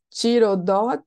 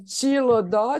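First: The second consonant is an R sound. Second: The second consonant is an L sound. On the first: The speaker calls it wrong. "eu falei errado" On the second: The speaker calls it right. "é com L mesmo e não com R"

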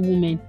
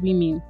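First: The first syllable sounds like 'woo'. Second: The first syllable sounds like 'wee'. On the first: The speaker calls it wrong. "Actually, it's not women" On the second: The speaker calls it right. "It's women. ... We, not who"

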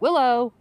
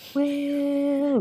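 First: The name is said in a light, friendly tone. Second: The name is drawn out in an eerie tone. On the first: It is an ordinary friendly greeting. "They're not just like" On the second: It sounds like a scene from a horror movie. "they do kind of say it in a really creepy way"

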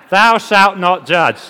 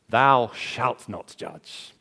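First: It is said with a scolding attitude. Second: It is said plainly, without attitude.

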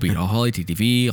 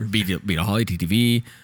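First: The name is said at a normal pace. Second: The name is said more slowly.

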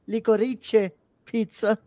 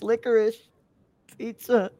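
First: It is pronounced in an Italian way. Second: It is pronounced in an English way. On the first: The speaker calls it wrong. "I wanted to pronounce it in Italian" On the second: The speaker calls it right. "when it's licorice pizza"

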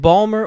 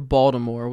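First: The T is dropped and the word is shortened. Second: The T is pronounced and all syllables are said. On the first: The speaker is a local from the city. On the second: The speaker is not from the city.

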